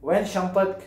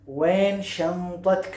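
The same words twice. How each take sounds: First: Said in the usual way. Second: वैन शंतक stretched very slowly for learners; teacher's slow-motion वैन शंतक; slow model phrase. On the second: Shown as a demonstration. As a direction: draw out each syllable of वैन शंतक.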